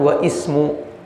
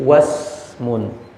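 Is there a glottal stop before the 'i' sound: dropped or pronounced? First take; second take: pronounced; dropped. First: The glottal stop before 'ismu' is pronounced separately. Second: The glottal stop is dropped and the words join. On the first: The speaker calls it wrong. "kita salah kalau mengatakan wa ismu" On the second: The speaker calls it right. "tetapi wasmun"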